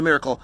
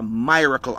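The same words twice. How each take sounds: First: "miracle" said the usual way, MIH-ruh-kul. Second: "miracle" said MY-ruh-kul with a long I; MY-racle. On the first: Speaker to audience, the everyday "miracle" said plainly. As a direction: standard "miracle" with a short i. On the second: Speaker to audience, his own personal "miracle" said MY-racle. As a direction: stretch the first vowel of "miracle" into "my". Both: Shown as a demonstration. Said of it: "I'm not talking about a miracle, I'm talking about".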